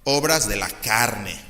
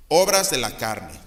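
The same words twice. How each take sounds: First: Obras said slowly, with weight; slow, weighty obras de la carne; stress on obras. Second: Obras de la carne at normal pace, firm; firmly restated Obras; stress on Obras. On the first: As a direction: lean on the word obras and drag it out. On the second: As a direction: repeat obras de la carne briskly. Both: Shown as a demonstration. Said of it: "Y fíjense".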